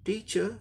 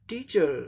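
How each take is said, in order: First: The final r sound is dropped. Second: The final r sound is lightly pronounced. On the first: "ये हो गया British" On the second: "ये हो गया American"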